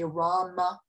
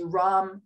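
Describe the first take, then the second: First: The word ends with a final a vowel. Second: The word ends without the final vowel. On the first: This is the traditional Sanskrit form. "in Sanskrit, you would say" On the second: This is the modern form. "whereas you'd say"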